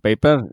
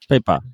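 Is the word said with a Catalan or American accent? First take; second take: Catalan; American. First: It is said with a Catalan pronunciation. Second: It is said with an American-sounding R.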